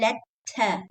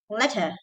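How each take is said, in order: First: The middle t is doubled and stressed. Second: The middle t is short and quick. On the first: The speaker calls it wrong. "You should not say letta" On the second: The speaker calls it right. "in English you go fast"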